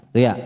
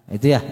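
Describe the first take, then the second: The two takes are said the same way.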